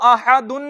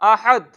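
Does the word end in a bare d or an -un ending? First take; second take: -un ending; bare d. First: The word ends with an added -un sound. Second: The word stops on a bare d sound. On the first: The speaker calls it wrong. "इसको आहादुन नहीं" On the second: The speaker calls it right. "बल्कि इसको पढ़ेंगे आहद"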